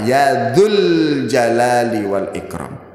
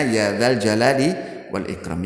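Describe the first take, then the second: First: The second word is said with a 'u' vowel. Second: The second word is said with an 'a' vowel. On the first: The speaker calls it wrong. "dibaca dengan tanda dhammah ... Salah" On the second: The speaker calls it right. "Mestinya dibaca dengan fathah"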